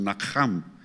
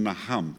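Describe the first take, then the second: First: The H is a strong, rasping throat sound. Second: The H is a light, soft breath. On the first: The speaker calls it right. "ci spun Naham" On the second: The speaker calls it wrong. "nu spun Naham"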